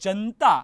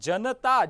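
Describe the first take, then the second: First: The vowel after the n is dropped. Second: The vowel after the n is sounded. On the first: The speaker calls it wrong. "ભૂલથી અથવા તો શીઘ્રતાથી ... અશુદ્ધ ઉચ્ચારણ" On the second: The speaker calls it right. "નમાં અ છે"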